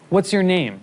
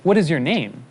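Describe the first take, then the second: First: "What's your name" with what and is run together; natural contracted form. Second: "What is your name" with is said as a separate full word; unnatural full form. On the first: Teacher shows the correct English form, natural contraction. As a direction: say "What's" as one smooth word, voice falling on name. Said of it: "the correct form in English is". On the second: Teacher shows what sounds unnatural to say, uncontracted. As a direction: spell out "What is" in two distinct words. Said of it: "it would sound unnatural to say". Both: Shown as a demonstration.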